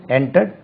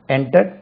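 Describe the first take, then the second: No difference in how they are said.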